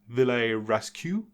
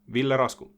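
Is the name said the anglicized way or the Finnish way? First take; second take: anglicized; Finnish. First: The name is said the anglicized, common way. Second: The name is said the native Finnish way. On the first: "the pronunciation that is going to be the most common" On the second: "my name is Ville Rasku"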